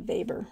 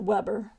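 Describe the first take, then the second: First: The name is said with a German pronunciation. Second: The name is said with an English pronunciation. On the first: "but in German it'd be Weber" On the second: "We would pronounce it Weber"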